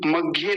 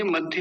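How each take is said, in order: First: मध्य as "mag-ye", g for dh; wrong misread consonant. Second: मध्य as "madh-ye"; correct dh. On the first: Teacher warning of a font misreading, mispronunciation. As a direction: put a g sound in place of dh in मध्य. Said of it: "मध्य नहीं है". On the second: Teacher correcting a font misreading, dh pronunciation. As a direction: sound a clear dh in मध्य. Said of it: "मध्य है". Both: Shown as a demonstration.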